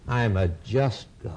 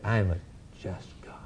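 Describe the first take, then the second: First: "just" set apart, low and weighty; low, solemn stress on "just"; emphasis on just. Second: "just God" dropped almost to a whisper after a pause; low and very soft, pause before "just"; pause, then breathe out "just God" with weight; hushed emphasis on just. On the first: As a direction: drop low and lean gravely on "just". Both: Real, not acted. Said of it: "I wish I could emphasize it".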